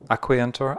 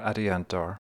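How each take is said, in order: First: The consonant after the first vowel is a K. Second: The consonant after the first vowel is a T. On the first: "it could be a K sound" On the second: "or it could be a T sound"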